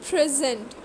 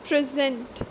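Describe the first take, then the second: No difference in how they are said.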